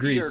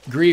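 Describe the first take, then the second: First: The word ends with a clear hissing S. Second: The word ends on a vowel with no S. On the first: "with the hard S" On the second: "I think the official pronunciation is Gree"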